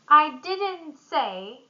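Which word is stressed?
didn't. The stress falls on the word didn't. The statement is denied. "I deny it"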